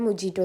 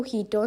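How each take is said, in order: First: The middle consonant is a J sound. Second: The middle consonant is an H sound. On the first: "ചില ഹോട്ടലിലൊക്കെ പോയാൽ മൊജീറ്റോ എന്ന് പറയണേക്കാം" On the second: "ശരിക്കും ഇതിന് pronounce ചെയ്യാൻ മൊഹീറ്റോ എന്നാണ്"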